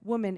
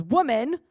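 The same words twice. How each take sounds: First: Respectful. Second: "Woman," called out sharply, louder, rising; harsh address. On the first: Shown as a demonstration. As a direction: give "woman," gentle honour. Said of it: "is a term of respect". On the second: Retold or imitated. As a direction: snap out "Woman," as a stern summons. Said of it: "it can sound kind of harsh where Jesus goes".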